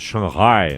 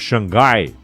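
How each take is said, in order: First: It is said with English-like sounds, shang-HIGH. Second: It is said with Portuguese sounds, shang-GUY. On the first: A cosmopolitan way of saying it. "digamos que é uma pronúncia cosmopolita" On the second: The way it was traditionally said. "como nos referíamos a, a Xangai antigamente"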